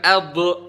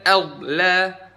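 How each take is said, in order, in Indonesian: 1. Bunyi d dilepas dengan memantul. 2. Bunyi d ditahan tanpa dilepas. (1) "bukan adl" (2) "Nggak dilepas tapi ditahan di situ"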